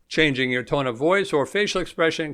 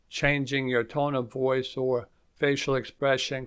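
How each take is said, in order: First: The voice is lively with varied pitch. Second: The voice is flat, low-energy and monotone.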